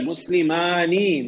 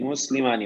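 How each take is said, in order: First: مسلمانی spelled out slowly: مس-لِ-ما-نی with a long final ی; slow classroom demo; slow drawn model word. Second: Said in the usual way. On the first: Shown as a demonstration. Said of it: "teacher models the dual form". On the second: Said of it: "teacher repeats the dual form".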